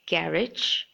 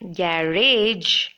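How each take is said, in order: First: The word is said short. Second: The word is drawn out long. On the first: The speaker calls it right. "just make it short" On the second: The speaker calls it wrong. "It shouldn't be pronounced as garage"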